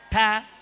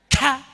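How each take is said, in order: First: The sound is said plainly without extra breath. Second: The sound is pushed out with a heavy breath. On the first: The speaker calls it right. "Biasa aja" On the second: The speaker calls it wrong. "Tapi tidak usah dikeluar-keluarkan ya. ... Tidak ada begitu"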